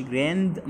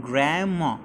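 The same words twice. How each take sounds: First: "grandma" slowly, with the D sounded out; D overpronounced. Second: "grandma" with an unreleased D; silent D. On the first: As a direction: split "grandma" after an audible D. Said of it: "ما نظهرش الدي". ("grandma" ببطء مع إظهار الدي) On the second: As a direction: glide through "grandma" without popping the D. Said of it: "ما نظهرش الدي أو أقول". ("grandma" والدي مش ظاهرة) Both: Shown as a demonstration.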